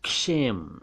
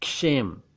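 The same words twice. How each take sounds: No difference in how they are said.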